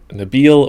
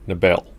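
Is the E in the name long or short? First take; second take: long; short. First: The E vowel is long. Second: The E vowel is short. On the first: "is the E long" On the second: "or not?"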